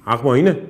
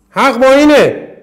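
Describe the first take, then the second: First: Said in the usual way. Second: اینه hit higher and louder, falling hard at the end; emphatic loud repeat. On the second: Shown as a demonstration. Teacher hammering the rule to students, loud emphatic. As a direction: shout اینه home with a strong fall.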